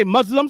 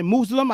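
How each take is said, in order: First: "Muslim" as MUZ-lim, short u like in buzz; one pronunciation of Muslim. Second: "Muslim" as MOOZ-lim, long oo like in moose; other pronunciation of Muslim. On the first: Vlogger showing how some people say "Muslim": MUZ-lim. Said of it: "Some people say Muslim". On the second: Vlogger showing the other way people say "Muslim": MOOZ-lim. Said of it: "some people say Muslim". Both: Shown as a demonstration.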